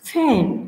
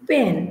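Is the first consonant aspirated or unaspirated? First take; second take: aspirated; unaspirated. First: The first consonant has a puff of air. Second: The first consonant has no puff of air. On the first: "aspirated সাউন্ডে" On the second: "আমরা যখন উচ্চারণ করি এটাকে বলি পেন"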